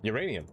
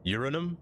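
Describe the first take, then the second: First: "Uranium." said yu-RAY-nee-um, firmly; correct uranium. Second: "Uranum?" said as YUR-a-num, no "i", rising; dropping the "i" in "Uranum", asked; mock wrong uranum. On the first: Streamer insists on the right way, yu-RAY-nee-um. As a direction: stress RAY in "Uranium", falling. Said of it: "only one way to say uranium". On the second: Streamer tries the odd spelling, Uranum as yur-a-num. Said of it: "Who on earth says uranum?". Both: Shown as a demonstration.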